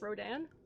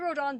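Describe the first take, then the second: First: The final syllable sounds like 'Dan'. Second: The final syllable does not sound like 'Dan'. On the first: The speaker calls it right. "it's pronounced like Dan, so it's Rodan" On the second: The speaker calls it wrong. "I say Rodon"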